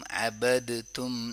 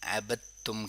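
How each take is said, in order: First: The d is pronounced separately before the t. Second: The d merges into a doubled t sound. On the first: The speaker calls it wrong. "अबद तुम नहीं करेंगे" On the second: The speaker calls it right. "इदगाम हो रहा है। ... अबद तुम करेंगे"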